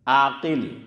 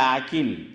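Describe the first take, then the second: First: It starts with a throaty ain and deep qaf. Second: It starts with a plain vowel and plain k. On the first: The speaker calls it right. "ऐन अलीफ बड़ा काफ और लाम" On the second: The speaker calls it wrong. "हम गुजरातियों की तजवीद सही नहीं होती तो हम कहते हैं"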